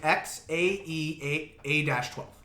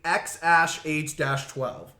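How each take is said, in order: First: The second part is said as letters A E. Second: The second part is said as the word ash. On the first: This is how the name looks when written. "That's how it looks" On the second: This is the father's version of the name. "Elon Musk says A E means ash"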